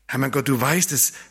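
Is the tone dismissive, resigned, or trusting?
trusting. It sounds trusting and full of hope. Only God can make it happen. "du bist der Einzige, der es hinkriegen kann"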